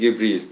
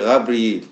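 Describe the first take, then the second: First: The name begins with a hard G sound. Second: The name begins with a throaty R sound. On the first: This is the form Muslims use. "les musulmans disent Gebril" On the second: This is the form the speaker's own community uses. "Nous, on dit Rabril"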